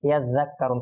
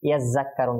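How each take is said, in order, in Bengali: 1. দ্বিতীয় ব্যঞ্জনটি নরম 'th' ধ্বনি। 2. দ্বিতীয় ব্যঞ্জনটি আলাদা, একটু কড়া ধ্বনি। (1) "যেমন কি এটা হবে" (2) "অনেকেই পড়বেন কিরকম"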